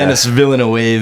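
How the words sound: The name is said with an English accent. "I'm still calling him"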